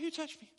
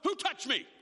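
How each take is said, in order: First: It is said lightly and casually, without force. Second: It is said loudly and forcefully, sounding agitated. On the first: The question is an offhand, mild inquiry. The speaker calls it wrong. "Do you think he was really just, hey" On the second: The question is an agitated demand for an answer. The speaker calls it right. "agitated or said it with force or with some volume"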